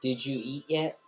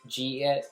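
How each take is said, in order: First: Each word is said separately and fully. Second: The words are run together into two syllables. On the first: This is how most people say it. "most people would say" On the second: This is how people in Philadelphia say it. "in Philly, you say"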